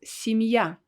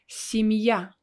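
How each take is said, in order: The two takes are said the same way.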